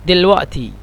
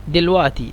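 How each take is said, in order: No difference in how they are said.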